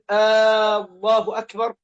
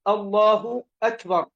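First: The opening vowel of Allah is drawn out. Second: The opening vowel of Allah is short. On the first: It becomes a question. The speaker calls it wrong. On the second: It is a statement of praise. The speaker calls it right.

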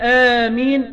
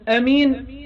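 First: The first vowel is long. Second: The first vowel is short. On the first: "بمد" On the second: "بدون مد"

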